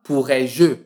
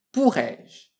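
First: "pourrais-je" with an extra "eu" sound added at the end; the wrong way: "pourrais-je" ending in a spoken "eu"; wrong pronunciation. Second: "pourrais-je" said slowly, ending cleanly on "je"; careful, slow "pourrais-je"; correct pronunciation. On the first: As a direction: mispronounce "pourrais-je" with a final "eu". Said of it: "on ne prononcera pas pourrais-je". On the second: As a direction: model "pourrais-je" slowly, with no extra vowel. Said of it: "mais pourrais-je". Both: Shown as a demonstration.

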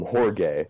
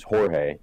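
First: Jorge with a hard English g, hor-gay; anglicized Jorge. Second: Jorge with an h sound, hor-hey; Spanish Jorge. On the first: Retold or imitated. Old sub taking roll, mispronouncing the name. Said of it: "Jorge," ... no goddamn Jorge". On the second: Shown as a demonstration. Naming a Mexican classmate, correct Spanish pronunciation. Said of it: "he would call him Jorge".

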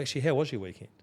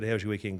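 First: Sincere check-in, a little more emphasis; genuinely interested. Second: Routine, offhand greeting; perfunctory small talk. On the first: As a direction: ask as if you really want to know. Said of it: "don't know who the person is". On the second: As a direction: toss it out without real interest. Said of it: "Right, let's work". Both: Acted.

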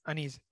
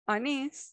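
First: Unease as "anis", soft, low and quick with a falling end; pronouncing it. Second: Unease as "anis", light rise at the end; pronouncing it. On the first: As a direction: say Unease quietly, with a short fall. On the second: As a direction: say Unease slowly with a rising tune. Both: Shown as a demonstration. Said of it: "¿Cómo lo pronuncias tú?".

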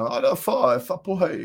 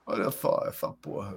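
First: "só" and "essa" said with a lisped f-like s, Lula style; lisp impression. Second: "Olha só, essa porra" with lisped s, quiet and low; lisp impression. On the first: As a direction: imitate Lula lisping "Olha só". (imitando a língua presa do Lula, "só" soa "fó") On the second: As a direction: softly mimic the lisp, "só" like "fó". (língua presa imitada, baixinho, "essa" soa "éfa") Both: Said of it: "nossos presidentes tudo tem língua presa".

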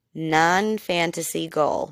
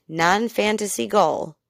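First: "Non-fantasy goal" repeated slowly and deliberately; slow down to stress "Non-fantasy goal"; emphatic repeat. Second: Said in the usual way. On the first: Real, not acted. Host repeats a key definition for listeners, "Non-fantasy goal" slow and emphatic. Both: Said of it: "I'm gonna repeat that".

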